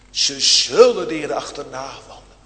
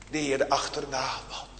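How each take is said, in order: First: Louder, weighty "Ze zullen de Heere achterna wandelen"; louder proclamation. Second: Softer and quick "de Heere achterna wandelen"; softer first take. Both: Real, not acted. Preacher repeats promise twice.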